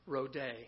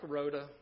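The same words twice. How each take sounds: First: The name is pronounced the Greek way. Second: The name is pronounced the American way. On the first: "in the Greek, it's pronounced Rhoda" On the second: "But if you like Rhoda, that's quite all right"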